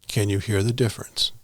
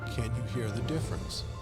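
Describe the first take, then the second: First: It is recorded at the highest fader level. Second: It is recorded at the lowest fader level. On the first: "Level ten" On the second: "Level five"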